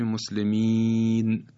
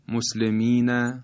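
First: The word ends on a bare final consonant. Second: The word ends with a short final vowel. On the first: The reader stops at the end of the word. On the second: The word is read without stopping.

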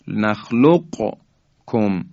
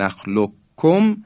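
First: The Q is pronounced separately before the K. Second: The Q merges into a doubled K. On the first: "قاف رو تلفظ کنیم و در کاف هم ادغام نکنیم" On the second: "همین قاف و کاف که مثالاش هم عرض کردم"

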